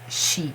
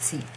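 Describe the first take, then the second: First: The syllable starts with a 'sh' sound. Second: The syllable starts with an 's' sound. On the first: The speaker calls it right. "you have to pronounce she" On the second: The speaker calls it wrong. "not si"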